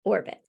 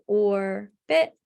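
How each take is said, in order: First: "orbit" said smoothly as one blended word. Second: "orbit" said slowly as two syllables, or then bit. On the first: Students blending syllables back together, read smoothly. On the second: Students touch and say each syllable, split slowly. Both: Shown as a demonstration. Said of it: "students would say orbit".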